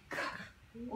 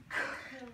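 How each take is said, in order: First: Soft "K-l-am" with each sound pulled apart again; segmented sounds. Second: Soft "K-l-am" with each sound pulled apart; segmented sounds. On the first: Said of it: "let's do it again". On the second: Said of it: "Let's push the sounds". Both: Shown as a demonstration. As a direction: break "K-l-am" into its sounds, quietly.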